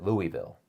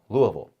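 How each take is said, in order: First: It is pronounced the way outsiders say it. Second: It is pronounced the way locals say it. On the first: This is how non-locals say the name. "the locals do not pronounce it Louisville" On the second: This is how residents say the name. "they call it Louisville"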